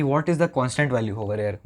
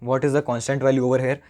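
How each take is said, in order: First: Said in the usual way. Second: Slow, deliberate repeat of the question. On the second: Shown as a demonstration. Teacher repeating the question to students, slow and deliberate. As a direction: spell it out slowly for the class. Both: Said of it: "बहुत धीरे धीरे बोल रहा हूँ".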